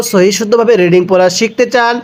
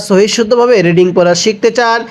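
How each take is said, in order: Both takes have the same delivery.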